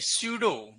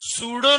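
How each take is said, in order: First: It begins with s followed by a y glide. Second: It begins with a plain s sound. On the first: The speaker calls it right. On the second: The speaker calls it wrong. "सूडो नहीं"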